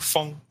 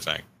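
First: The vowel sounds like the u in fun. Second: The vowel sounds like the a in cat. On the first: "it's like Fung, like that" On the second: "But that's too hard, so I just say Fang"

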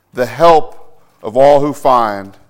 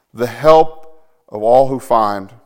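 Both takes have the same delivery.

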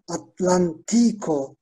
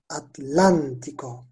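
First: The stress is on the third syllable, ti. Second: The stress is on the second syllable, lan. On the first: The speaker calls it wrong. "Atlantico değil, normal şartlarda" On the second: The speaker calls it right. "vurguyu ikinci hedeye yaptığım için"

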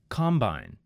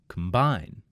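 First: The stress is on the first syllable. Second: The stress is on the second syllable. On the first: It is a noun. "In the first word, it was on the first syllable" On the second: It is a verb. "in the second word, I moved the emphasis to the second syllable"

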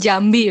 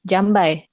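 First: The final vowel sounds like 'ee'. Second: The final vowel sounds like 'eye'. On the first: The speaker calls it right. "it's supposed to be Jambi" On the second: The speaker calls it wrong. "so I have to read it like Jambai"

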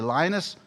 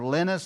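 First: The name is said with an English pronunciation. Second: The name is said with a non-English pronunciation. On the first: The speaker calls it right. "I should use a English pronunciation" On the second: The speaker calls it wrong. "instead of Linus"

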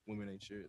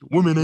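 First: It is said at a normal, quiet volume. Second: It is yelled out very loudly.

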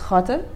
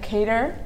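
First: The name is pronounced the Arabic way. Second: The name is pronounced the anglicized, non-Arabic way. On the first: "in Arabic, it's Khater" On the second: "for people who can't speak Arabic, it's like Kater"

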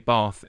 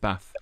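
First: It is said in a southern English accent. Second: It is said in a northern English accent. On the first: "when I lived down south, I had a southern accent. So I would say Bath" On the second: "instead of Bath"

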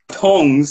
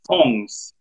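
First: The word begins with a plain t sound. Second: The word begins with a th sound. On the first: The speaker calls it wrong. "there's another letter in there that you just entirely missed out" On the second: The speaker calls it right. "the proper way of saying tongs in Australia is"

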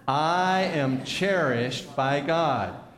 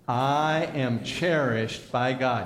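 First: It is said with strong, believing conviction. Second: It is said plainly, without strong conviction.

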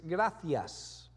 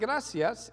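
First: The c is said like a th. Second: The c is said like an s. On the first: This is the way it is said in Spain. "But in Spain, ... it's gracias. So you have to tweak with a lisp" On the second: This is the Latin American way of saying it. "it's not gracias"

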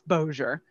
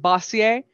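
First: The name is said with an anglicized pronunciation. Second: The name is said with a French-sounding pronunciation. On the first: The speaker calls it right. "that's where the French doesn't kick in. It's Bossier" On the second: The speaker calls it wrong. "which will be pronounced"

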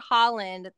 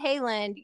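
First: The name is said like Holland. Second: The name is not said like Holland. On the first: The speaker calls it right. "That is the correct pronunciation. It's Holland" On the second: The speaker calls it wrong. "I said Haaland"

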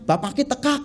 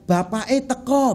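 First: It is said in Banyumas ngapak dialect. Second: It is said in standard Javanese.

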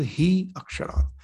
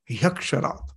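First: The two words are said apart. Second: The two words are blended into one.

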